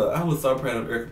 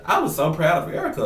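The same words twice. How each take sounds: First: Said in the usual way. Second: Proudly and a bit louder, landing on Erica; first take, louder with pride; proud, emphatic. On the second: Real, not acted. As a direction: gush about how proud you are.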